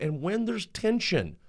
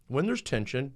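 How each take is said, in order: First: "when there's tension" said slower with a lifted "when"; stressed phrase. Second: Said in the usual way. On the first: Shown as a demonstration. A speaker repeating "when there's tension" to stress it. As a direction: lean into "when" and draw the phrase out.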